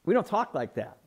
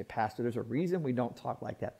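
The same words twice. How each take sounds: First: Said in the usual way. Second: Lower, softer aside as a churchgoer; lightly voiced, hushed objection to the pastor; objecting churchgoer. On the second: Churchgoer telling the pastor there's a reason, low-key objection. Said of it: "You say".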